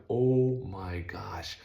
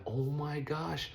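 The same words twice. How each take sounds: First: Slow, breathless whispered oh my gosh; stunned whisper. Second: High, slow drawn-out dismay; dismayed oh my gosh. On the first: Watching the rig get hit. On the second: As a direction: stretch it out in disbelief. Car comes back damaged. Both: Retold or imitated.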